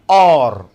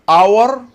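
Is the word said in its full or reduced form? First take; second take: reduced; full. First: The word has a weak, reduced vowel. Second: The word has a full, clear vowel.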